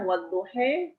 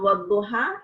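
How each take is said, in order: First: The final vowel is tilted fully toward e. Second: The final vowel is an open a.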